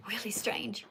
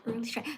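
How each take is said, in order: First: Said in the usual way. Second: Breathy whispered repeat of "really strange". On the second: Real, not acted. Streamer whispering to herself after a frustrating chat.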